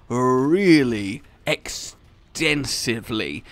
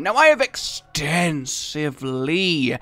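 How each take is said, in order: First: Extensively said very slowly and stretched; stressed extensively. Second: Extensively drawn out slowly; stressed extensively. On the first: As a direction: drag out really extensively. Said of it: "I said extensively in a extended". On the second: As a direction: stretch extensively long. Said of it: "to stress the word extensively". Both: Shown as a demonstration.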